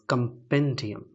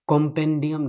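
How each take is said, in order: First: The first syllable has a reduced 'uh' vowel. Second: The first syllable has an open 'o' vowel. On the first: The speaker calls it right. "This is कंपेंडियम" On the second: The speaker calls it wrong. "ये कॉम्पेंडियम नहीं है"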